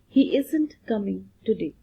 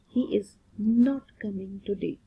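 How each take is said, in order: First: The negative is shortened into one joined word. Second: The negative is said as two separate full words. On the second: "Is not"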